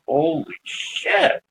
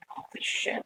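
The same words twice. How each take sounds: First: Drawn out, half under the breath; slow awed disbelief. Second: Breathless whisper, no voice at all; whispered holy shit. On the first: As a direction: stretch it out in stunned wonder. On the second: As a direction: whisper it so the ghost can't hear you. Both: Retold or imitated. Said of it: "and I'm like".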